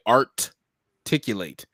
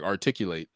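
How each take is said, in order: First: Art-ticulate said with ART punched and split off; split word. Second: Said in the usual way. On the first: Shown as a demonstration. Host coining his catchphrase, art-ticulate with ART stressed. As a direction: break it as art-ticulate, landing hard on art. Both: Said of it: "we bring the art and articulate together".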